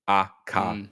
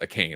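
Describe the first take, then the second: First: The name is said in a Japanese way. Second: The name is said in an English way. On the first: "Akane is what Indie Ronin is saying. Japanese name" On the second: "I'm being told I'm saying it wrong"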